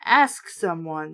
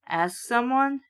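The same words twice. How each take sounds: First: A hint of an exploding father; lower, slow exploding dad. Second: Said in the usual way. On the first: A narrator's reading. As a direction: drag it out low, fed-up mock anger. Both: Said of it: "Dad exploded".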